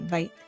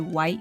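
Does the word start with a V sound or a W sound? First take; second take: V sound; W sound. First: The word begins with a V sound. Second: The word begins with a normal W sound. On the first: "replacing the W's with V"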